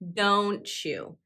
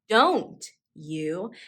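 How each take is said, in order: First: The t and y merge into a ch sound. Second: The t and y are said as separate sounds. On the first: The speaker calls it right. "Notice how I say the phrase don't you" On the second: The speaker calls it wrong. "I do not say don't you"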